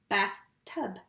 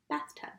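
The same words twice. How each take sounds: First: Bathtub with a clear gap between bath and tub; split into syllables. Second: Said in the usual way. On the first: Shown as a demonstration. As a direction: break Bathtub into two pushes. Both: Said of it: "it's all going together".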